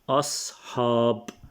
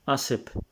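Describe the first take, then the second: First: The word is pronounced the native way. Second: The word is pronounced clipped, like a learner. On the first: The speaker calls it right. "The correct word is أصحاب" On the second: The speaker calls it wrong. "Benny Lewis will say أسب"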